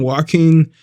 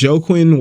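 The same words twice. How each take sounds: First: Joaquin said as "wah-KEEN"; alternative pronunciation. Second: Joaquin said as "JOE-kwin"; spelling pronunciation. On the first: Vlogger unsure of a fighter's name, Joaquin as "wah-KEEN". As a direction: say Joaquin with a W start and a "keen" ending. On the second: Vlogger trying out a fighter's name, Joaquin as "JOE-kwin". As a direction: say Joaquin with a hard J and a "kwin" ending. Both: Shown as a demonstration. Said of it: "people say it differently".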